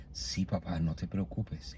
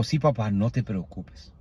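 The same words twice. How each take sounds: First: Much softer, gentle murmur to a sick father; softly. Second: Overcome with emotion. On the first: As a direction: say it barely above a breath, tenderly. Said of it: "le digo despacito". (en voz muy baja, con ternura) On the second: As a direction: slowly, voice full of feeling. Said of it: "me invade la emoción". (con emoción, despacio) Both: Retold or imitated.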